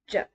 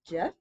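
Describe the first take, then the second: First: The pitch sounds short and choppy. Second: The pitch starts low and then rises. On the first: "Kind of sounds choppy" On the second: "Starts down and it goes up"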